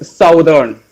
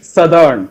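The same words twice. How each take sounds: First: The first syllable sounds like 'south'. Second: The first syllable sounds like 'suth'. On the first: The speaker calls it wrong. "We are just reading this uh, words southern" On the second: The speaker calls it right. "but it's actually southern. It is its spelling comes as S U T H E R N"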